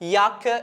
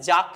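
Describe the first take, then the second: First: The word begins with a Y sound. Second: The word begins with a J sound. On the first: The speaker calls it right. "യാക്ക് എന്നാണ് വായിക്കുന്നത്" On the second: The speaker calls it wrong. "ജാക്ക് എന്നല്ല"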